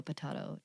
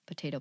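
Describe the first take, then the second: First: Potato with an AH, puh-TAH-toh; British pronunciation. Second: Potato with an AY, puh-TAY-toh; American pronunciation. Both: Shown as a demonstration. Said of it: "it is the American British".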